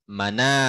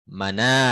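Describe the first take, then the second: No difference in how they are said.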